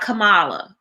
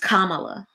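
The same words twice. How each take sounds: First: The name is said with a non-Indian pronunciation. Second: The name is said with an Indian pronunciation. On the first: The speaker calls it wrong. "It's not Kamala" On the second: The speaker calls it right. "with an Indian pronunciation"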